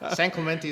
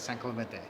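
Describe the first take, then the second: First: The name is said with English vowels and sounds. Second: The name is said with Spanish vowels and sounds. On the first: The speaker calls it wrong. "San Clemente is what I say" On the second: The speaker calls it right. "you talk to Alicia and it's San Clemente"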